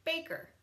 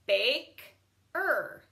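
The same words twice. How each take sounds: First: Said in the usual way. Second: Bake-er split into two parts; Bake-er with a break; sounded out. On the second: Shown as a demonstration. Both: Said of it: "Same with this one".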